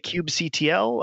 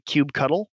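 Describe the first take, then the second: First: The ending is spelled out letter by letter. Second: The ending is said as the word cuddle. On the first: "Other people say kube C-T-L" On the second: "I tend to say kube cuddle"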